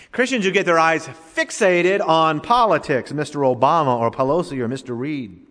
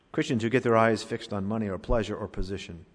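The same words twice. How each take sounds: First: Forceful preaching. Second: Said in the usual way. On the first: Real, not acted. Preacher scolding his flock with forceful preaching. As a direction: hammer the first 'Christians who get' line hard. Preacher's rising repeated indictment.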